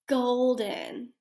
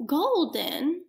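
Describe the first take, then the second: First: Shouting. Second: Slow whisper into cupped hand. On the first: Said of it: "all gonna shout it out to me". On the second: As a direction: hush it, drawn out slowly. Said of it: "whisper this word into your hand". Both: Shown as a demonstration.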